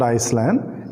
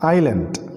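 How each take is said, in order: First: The s is sounded, like Iceland. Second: The s is silent, said eye-land. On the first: The speaker calls it wrong. "many people pronouncing it as Iceland. It's not Iceland" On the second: The speaker calls it right. "it is island"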